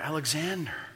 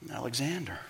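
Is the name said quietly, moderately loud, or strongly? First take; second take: moderately loud; quietly. First: It is said a little louder. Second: It is mumbled very quietly.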